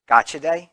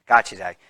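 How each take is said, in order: First: Gotcha Day rising up as an unsure question; checking the name with a lifted, questioning end; asking. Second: Gotcha Day settling down with a firm falling end; confirming. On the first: Candidate unsure of the date, asking the crowd, with a questioning rise. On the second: Candidate confirming the adoption day to the crowd, falling and sure. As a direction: state it back as settled fact. Confirms the name after asking. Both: Real, not acted.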